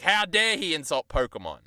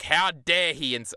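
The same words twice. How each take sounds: First: Hammed-up indignation, higher; mock outrage. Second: Hammed-up indignation, higher and slower; mock outrage. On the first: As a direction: fake fury over Pokemon. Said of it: "I was like". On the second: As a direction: play the offended fan, drawn out. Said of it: "I'm like".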